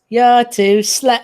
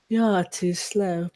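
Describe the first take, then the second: First: It is said in a joking, comedic tone. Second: It is said in a grave, serious tone. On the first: "But in a comedic sense" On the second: "in a more serious sense"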